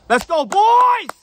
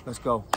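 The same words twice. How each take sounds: First: Huge, high, drawn-out hype yell; rallying shout. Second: Said in the usual way. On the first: Real, not acted. Vlogger rallying his fans at sign-off, full-out shout. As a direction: scream it high and long to fire up the fans.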